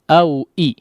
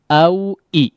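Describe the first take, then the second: Both takes have the same delivery.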